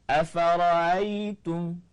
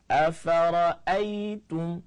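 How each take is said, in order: First: The middle glottal stop is left out. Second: The middle glottal stop is clearly pronounced. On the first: It follows a different reading tradition. "itu tanpa hamzah" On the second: It follows the Hafs reading.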